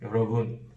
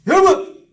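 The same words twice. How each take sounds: First: It is said weakly, without energy. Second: It is said loudly with a strong accent.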